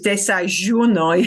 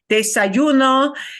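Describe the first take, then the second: First: The middle consonant is a strong zh sound. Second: The middle consonant is a soft y sound. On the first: This is how people from Buenos Aires say it. "that je thing with her because she's from Buenos Aires" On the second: This is the common pronunciation in most regions. "instead of desayuno"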